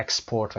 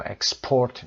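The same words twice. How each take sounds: First: Export stressed on the first syllable, EX-port; noun stress. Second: Export stressed on the second syllable, ex-PORT; verb stress. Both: Shown as a demonstration. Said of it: "گفتیم کدومشون verb هست".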